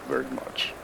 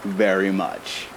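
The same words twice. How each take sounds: First: Low, soft mumble under the breath; muttered aside. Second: Very much drawn out slowly, stress on very; slow emphatic repeat. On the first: Acted. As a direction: slip it in almost unheard. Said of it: "We little people with our quiet voices". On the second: Shown as a demonstration. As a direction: spell it out slowly so she hears. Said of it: "I said I wouldn't comment".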